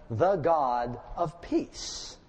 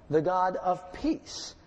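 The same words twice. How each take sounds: First: "the God of peace" drawn out slowly; slow emphasis. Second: "The God of peace" slow and lifted; slow emphasis. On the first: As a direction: lean into each word, slow. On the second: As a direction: repeat the title slowly for weight. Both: Shown as a demonstration.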